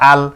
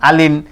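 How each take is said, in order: First: The word ends on the consonant l. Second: The word ends with the syllable -in. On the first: The reader stops on this word. "দুই জেরে থামিলে সাকিন ধরে পড়তে হয়" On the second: The reader does not stop on this word. "দুই জেরে না থামিলে যেমন আছে তেমন করে পড়তে হয়"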